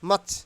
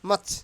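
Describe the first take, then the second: No difference in how they are said.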